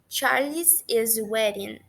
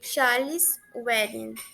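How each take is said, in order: First: An extra 'iz' syllable follows Charles. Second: No extra syllable follows Charles. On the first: The speaker calls it wrong. "Reparem que ficou um pouquinho estranho e até mesmo para pronunciar" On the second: The speaker calls it right. "se a gente pronuncia apenas com o apóstrofo, né, fica bem mais fluido"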